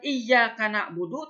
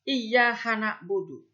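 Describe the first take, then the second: First: The consonant after iyya- is a k sound. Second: The consonant after iyya- is an h sound. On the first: The speaker calls it right. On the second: The speaker calls it wrong.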